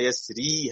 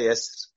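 First: The word ends with a final long 'ee' vowel. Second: The word ends without a final long vowel. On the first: The reciter carries on into the next words. "طب هوصل" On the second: The reciter stops on this word. "فحينما أقف أقول"

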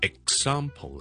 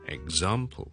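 First: The x is said as a voiceless ks. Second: The x is said as a voiced gz. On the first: "呢个系k s x 嗰个x x x 嘅时候咧，我冇声" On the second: "我哋系读gz 嘅"

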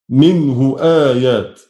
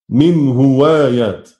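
First: The hamza is kept as a glottal stop. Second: The hamza is replaced by a w sound. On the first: "يكون فيها التحقيق" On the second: "الإبدال واو على قاعدة الإبدال"

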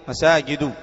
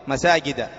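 No difference in how they are said.

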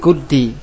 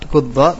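First: The word ends in an i vowel. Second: The word ends in an a vowel. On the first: "Kita baca lagi guddi" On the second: "Hurikat fil fathi lil tilqa sakinain"

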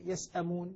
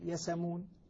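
First: The glottal stop is pronounced after the s. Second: The glottal stop is dropped; s takes its vowel. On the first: "هذه يسأمون" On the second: "قول يسأمون. أنا نقلنا حركة الهمزة إلى السين فتحركت السين وسقطت الهمزة"

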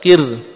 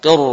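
First: The r is pronounced thin and light. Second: The r is pronounced thick and heavy. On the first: The speaker calls it wrong. "tipis coba" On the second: The speaker calls it right. "Tapi ternyata tebal"

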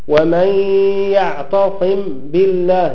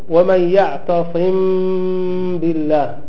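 First: The m is pronounced fully and clearly. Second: The m is softly hidden with a nasal hum. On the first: "وقيل بإظهارها" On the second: "الميم إن تسكن بغنة لدى باء على المختار"

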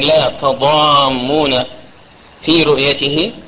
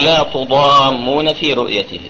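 First: The first syllable has the vowel a. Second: The first syllable has the vowel u. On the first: "وتجوز بالفتح والضم أي التاء تجوز فيها الفتح" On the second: "والضم"

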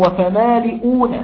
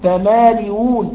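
First: The hamza is said as a full glottal stop. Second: The hamza is softened, with no full stop.

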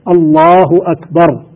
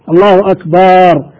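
First: The vowel after the b is kept short. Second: The vowel after the b is drawn out long. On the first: It means God is greatest. The speaker calls it right. "يجب أن تكون بهذه الصيغة" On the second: It turns the word into the plural of drum. The speaker calls it wrong. "هل هذا صح ولا غلط؟ خطأ"

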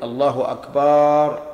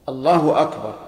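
First: The vowel after the b sound is lengthened. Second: No vowel in the phrase is lengthened. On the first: The speaker calls it wrong. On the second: The speaker calls it right.

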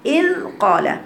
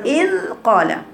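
No difference in how they are said.

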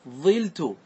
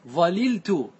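First: One l sound, with an i vowel after the first consonant. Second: Both l sounds are pronounced, split by a vowel. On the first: "احذف اللام وتنقل حركة العين ... انقلها الى الفاء" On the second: "تفك الإدغام وتأتي باللامين"

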